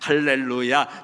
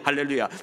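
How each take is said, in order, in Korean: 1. 이 단어는 느린 속도로 말해요. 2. 이 단어는 아주 빠른 속도로 말해요.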